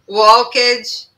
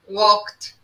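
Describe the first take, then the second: First: The ending is said with an extra vowel sound. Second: The ending is clipped, stopping halfway without a vowel. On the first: The speaker calls it wrong. "a gente pronuncia ed. Então, smoked, walked, talked, e não é" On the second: The speaker calls it right. "esse ed é como se não existisse a letra E"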